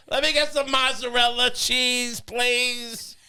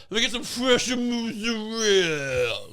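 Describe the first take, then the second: First: "mozzarella cheese" said fully in American, slow and higher, "please" drawn out; slow, sweet, childlike order; overly American mozzarella. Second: "mozzarella" as a slow, drawn Italian muzarel, higher; hammed-up Italian deli order, slowed; over-the-top Italian. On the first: The other extreme at the deli, slow, higher, overly American. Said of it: "But you also go". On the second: How you shouldn't order cheese, in a slow mock Italian accent. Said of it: "you don't go". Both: Shown as a demonstration.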